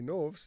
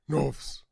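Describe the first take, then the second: First: It is said in a normal voice. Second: It is said in a deep Batman voice.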